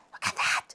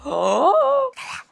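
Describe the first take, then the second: First: Breathy hushed look at that; whispered. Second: A gasp, then slow, high look at that; gasping in delight. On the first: Showing viewers a sweet manga panel, hushed whisper. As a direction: drop to a whisper over the page. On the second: Showing viewers a sweet manga panel, breathless delight. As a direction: catch your breath at the picture. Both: Real, not acted.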